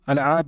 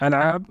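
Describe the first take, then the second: First: The word begins with an 'a' before the 'l'. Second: The word begins with an 'a' before the 'l'.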